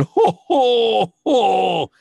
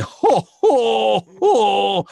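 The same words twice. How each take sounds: First: High, loud puppet laugh "jo, jo, jo"; Alf's laugh in Spanish. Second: High, loud puppet laugh "jo, jo, jo"; Alf's laugh. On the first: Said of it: "Y yo hacía". (risa aguda y fuerte de Alf en español) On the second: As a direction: belt out a high alien laugh. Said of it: "la risa que tenía era de". (risa aguda y fuerte de Alf) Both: Retold or imitated.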